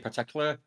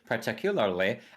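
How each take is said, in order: First: The end of the word is cut off. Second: Every syllable of the word is fully pronounced. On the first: This is how it comes out in normal talk. "just cut the end of the word off" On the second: This is the careful way, which feels unnatural. "now I say particularly, and that's that feels weird"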